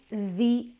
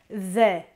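First: The vowel of 'the' sounds like 'i'. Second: The vowel of 'the' sounds like 'e'. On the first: The next word begins with a vowel. "diventa una I quando abbiamo invece una vocale" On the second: The next word begins with a consonant. "un po' come se fosse una E"

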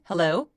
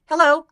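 First: It is said in a low, calm, steady voice. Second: It is said in a higher, less settled voice. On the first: The speaker calls it right. "안정적이고 좀 편안하고 낮은 목소리 톤을 가지고" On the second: The speaker calls it wrong. "hello 아니고"

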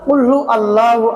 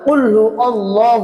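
First: The l in Allahu is light and thin. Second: The l in Allahu is heavy and thick. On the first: The speaker calls it wrong. "কুল্লু আল্লাহু আহাদ বলবো না" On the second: The speaker calls it right. "আল্লাহ শব্দের লামটা পুর হবে অর্থাৎ মোটা হবে"

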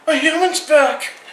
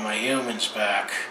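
First: It is said in a wildly excited way. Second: It is said in a calm, unexcited way. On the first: A dog is overjoyed at its owner returning. "here's dog" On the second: A cat is indifferent to its owner returning. "So that's my impression of a cat"

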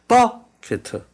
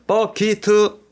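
First: The second syllable is said weakly. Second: The second syllable is said strongly. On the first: The speaker calls it right. "액센트가 앞쪽에 있기 때문에 이가 강하게 나오지 않습니다" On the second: The speaker calls it wrong. "이게 아니라"

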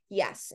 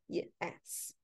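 First: The word is said smoothly as one whole. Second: The word is said in separate shaped parts. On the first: The speaker calls it right. "saying the whole word yes" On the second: The speaker calls it wrong. "instead of yes"

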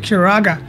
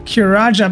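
First: The last syllable has a hard g sound. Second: The last syllable has a soft j sound. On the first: The speaker calls it right. "but it's actually Kiraga" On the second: The speaker calls it wrong. "I always say, like, Kiraja"

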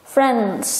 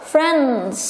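Both takes have the same delivery.

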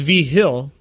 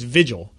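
First: The middle consonant sounds like an h. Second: The middle consonant sounds like a g. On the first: This is how the family says the name at home. The speaker calls it right. "it's V Hill is the way that we say it in New Mexico" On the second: This is how strangers misread the name. The speaker calls it wrong. "everyone up here automatically thinks it's Vigil"

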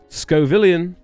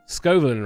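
First: The name ends with a 'villion' sound. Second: The name ends with a 'villain' sound. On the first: The speaker calls it wrong. "Not Scovillion" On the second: The speaker calls it right. "Scovillain, right?"

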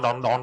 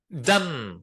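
First: The vowel is rounded like in gone. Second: The vowel is short and open like cup. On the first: The speaker calls it wrong. "Như vậy là sai" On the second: The speaker calls it right. "Cái nào là do âm u"

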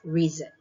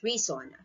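First: The middle consonant is a buzzing Z sound. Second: The middle consonant is a hissing S sound. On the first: The speaker calls it right. "So it's Z sound" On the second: The speaker calls it wrong. "Sometimes kasi ang pagbasa natin dyan is S"

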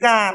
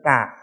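First: The pitch stays level and mid. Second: The pitch is lowered and falls.

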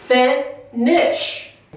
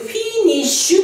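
First: The first vowel is mixed toward an 'eh' sound. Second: The first vowel is a strong, clear 'ee' sound. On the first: The speaker calls it right. "少しエを混ぜてフェニッシュ" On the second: The speaker calls it wrong. "イの音を強くフィニッシュというふうに発音してしまうと、ちょっと日本語っぽくなってしまう"

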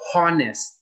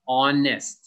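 First: The word begins with an audible h sound. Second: The word begins with a vowel, no h. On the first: The speaker calls it wrong. "You do not say the H. It is not honest" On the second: The speaker calls it right. "just honest"

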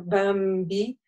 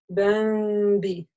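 First: The m is pronounced as a full, clear m. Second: The m is softened and lightly concealed toward b. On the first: The speaker calls it wrong. "мы не читаем тауэ бамби, да, бамби, то есть получится четко" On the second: The speaker calls it right. "Как будто мы хотим сказать букву Б, только легонько так"

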